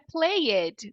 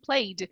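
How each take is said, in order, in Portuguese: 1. A terminação é pronunciada como uma sílaba extra. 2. A terminação é um som de D simples. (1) "não é played" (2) "e sim played"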